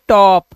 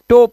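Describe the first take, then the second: First: The vowel is an open 'aw' sound. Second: The vowel is a closed 'oh' sound. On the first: The speaker calls it right. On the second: The speaker calls it wrong. "टोप नहीं है"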